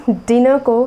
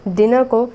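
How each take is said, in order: Both takes have the same delivery.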